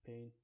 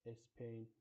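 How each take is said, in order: First: The word starts directly with the s-p cluster. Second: An extra vowel comes before the s-p cluster. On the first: The speaker calls it right. "which we use in words like Spain" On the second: The speaker calls it wrong. "sometimes by Spanish speakers uh, pronounced Espain"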